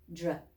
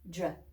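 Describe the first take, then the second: The two takes are said the same way.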